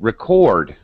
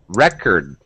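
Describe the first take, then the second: First: The stress is on the second syllable. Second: The stress is on the first syllable. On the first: It is used as a verb. "Or if I'm using the verb" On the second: It is used as a noun. "To keep a record"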